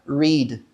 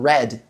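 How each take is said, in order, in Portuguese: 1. A vogal é longa, como em 'reed'. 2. A vogal é curta, como em 'red'. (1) "ler, no presente, ... se fala read" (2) "eu li no passado, ... com a mesma pronúncia de red"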